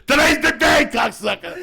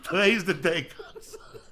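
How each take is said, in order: First: Much higher and louder pump-up yell; full shout. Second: Giggling pep talk to himself, last word breathed out; laughing quote. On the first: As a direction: scream it like a drill sergeant. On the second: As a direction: laugh it out, then drop to a breath. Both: Pretend. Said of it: "you tell that motherfucker".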